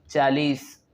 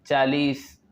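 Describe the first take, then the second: No difference in how they are said.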